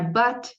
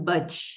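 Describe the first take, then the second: First: The final T is soft with no extra sound. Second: The final T becomes an extra 'ch' sound. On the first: The speaker calls it right. "A palavrinha but em inglês" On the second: The speaker calls it wrong. "acaba pronunciando but"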